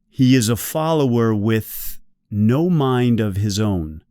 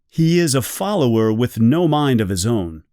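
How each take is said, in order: First: It is read slowly with stressed th sounds. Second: It is read at a normal, quick speaking pace. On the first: "now let's slow it down" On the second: "read it in a normal speed for me"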